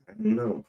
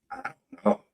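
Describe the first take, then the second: First: Said in the usual way. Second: Breathy whisper to himself. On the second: Real, not acted. Trailing off to himself.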